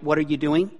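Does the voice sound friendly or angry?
friendly. It sounds relaxed and friendly.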